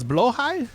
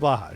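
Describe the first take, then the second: First: The first vowel sounds like 'oh', as in 'blow'. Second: The first vowel sounds like 'ah', not 'oh'.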